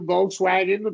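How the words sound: It is said with an American pronunciation. "Americans will do Volkswagen"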